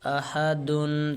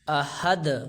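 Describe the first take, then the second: First: The word ends with a final 'un' sound. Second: The word ends on 'd' without 'un'. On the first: The reader keeps going without stopping. "मसलन अहदुन" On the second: The reader stops on this word. "जब हम दो पेश में वाक़फ़ करेंगे ... तो इसको अहद ... पढ़ेंगे"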